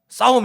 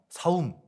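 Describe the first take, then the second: First: The first consonant is a tense 'ss'. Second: The first consonant is a plain 's'. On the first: The speaker calls it right. "싸움 해봐" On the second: The speaker calls it wrong. "사움 뭐 이렇게 발음하는 거죠"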